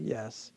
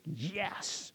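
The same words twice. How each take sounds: First: The word is said quietly with little energy. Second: The word is said loudly with lots of energy. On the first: The speaker calls it wrong. "not like a yes" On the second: The speaker calls it right. "But I mean like a hearty yes"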